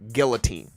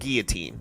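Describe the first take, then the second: First: The L sound in the middle is pronounced. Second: The L sound in the middle is silent. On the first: "my black belt coach, is like guillotine" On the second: "like the L in guillotine is silent"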